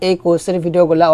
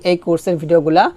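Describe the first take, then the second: No difference in how they are said.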